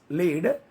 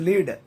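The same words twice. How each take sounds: First: The vowel is long, as in 'leading'. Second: The vowel is short, unlike in 'leading'. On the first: It is the verb meaning to guide. The speaker calls it wrong. "don't read as lead, because lead is a same leading" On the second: It is the name of the metal element. The speaker calls it right. "That is lead. Here lead, it's an element"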